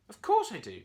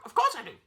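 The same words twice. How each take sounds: First: Annoyed reply. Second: Very high, loud parrot echo; parrot repeating. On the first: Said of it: "Curly replied". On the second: Parrot echoes the annoyed monkey, high and squawky. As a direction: parrot it straight back. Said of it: "the parrot responded". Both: A narrator's reading.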